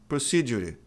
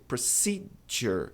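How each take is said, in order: First: Procedure dito à brasileira, com E final; wrong pronunciation. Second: Procedure slowly, stress on ce, R ending; correct pronunciation, slow. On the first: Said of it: "A maioria das pessoas pronuncia isso aqui dessa maneira". (pronúncia errada de procedure) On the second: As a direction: Procedure stressed on the second syllable. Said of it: "a tônica tá no C". (pronúncia correta e lenta de procedure) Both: Shown as a demonstration.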